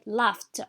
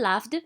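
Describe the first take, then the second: First: The ending is pronounced as a t sound. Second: The ending is not pronounced as a t sound. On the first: The speaker calls it right. "We say laughed. So the ed is pronounced t as well" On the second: The speaker calls it wrong. "We do not say laughed"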